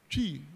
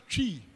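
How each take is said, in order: First: The word begins with a clear 'tr' sound. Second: The same.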